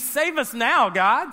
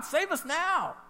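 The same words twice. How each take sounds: First: Said in the usual way. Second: Pleading cry. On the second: Shown as a demonstration. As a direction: Save us now lifted much higher, pleading. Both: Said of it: "It means".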